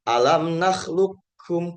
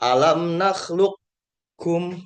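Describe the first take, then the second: First: The q is fully merged into the k. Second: The q quality is partly kept before the k. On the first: "kalau yang kamil langsung" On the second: "Kalau yang nakis, dia kofnya masih ada sifatnya"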